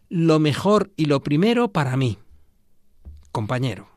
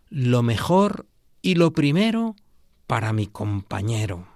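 First: There is a pause before the last word. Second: It flows without a pause before the last word. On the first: The best and first goes to me, addressing a companion. "le poníamos una coma y la recitábamos así" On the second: The best and first goes to my companion. "aquella consigna tan bonita"

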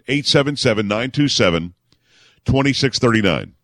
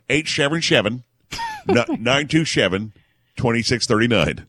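First: It is said in his own plain voice. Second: It is said like an old-time broadcaster.

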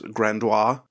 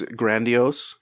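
First: The word ends with a French 'wa' sound. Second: The word ends without a French 'wa' sound. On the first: The speaker calls it wrong. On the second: The speaker calls it right.

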